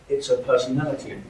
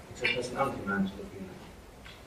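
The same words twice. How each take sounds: First: Said in the usual way. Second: It's her personality man's looking at in London style; London quote. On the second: Shown as a demonstration. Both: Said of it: "That's how it's said".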